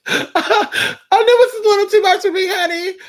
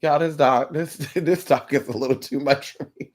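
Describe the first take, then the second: First: Very high, squeaky comic wail; overwhelmed squeal. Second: Low, softened aside with a laugh; overwhelmed aside. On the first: Pretend. Reader joking it's too much, high squeaky wail. Same aside repeated, squealed. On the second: Real, not acted. Reader admitting it's too much, low amused aside. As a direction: confide it quietly, pitched down. Comic aside, later repeated in squeal.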